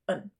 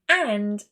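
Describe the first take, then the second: First: The word is reduced to a short weak form. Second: The word is said in its full form. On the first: "I reduced it down to un" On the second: "rather than saying and"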